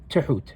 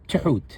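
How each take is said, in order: Both takes have the same delivery.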